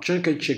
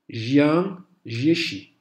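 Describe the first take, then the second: First: The name is said with a Western-style pronunciation. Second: The name is said close to Mandarin Chinese pronunciation. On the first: It is the most common form and easiest for Westerners. "c'est la plus courante, c'est celle qui dans notre bouche d'occidental se prononce le mieux" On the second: It is the form closest to the original Chinese. "c'est le plus proche de la prononciation chinoise"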